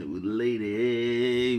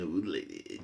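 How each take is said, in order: First: Mock the nephew by dragging out old lady; drawn-out imitation. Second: Said in the usual way. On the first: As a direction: stretch old lady out very slowly. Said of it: "Nephew says". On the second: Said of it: "nephew says".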